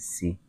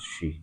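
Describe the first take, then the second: First: The word begins with an s sound. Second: The word begins with an sh sound. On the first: "They say si" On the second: "can't pronounce she"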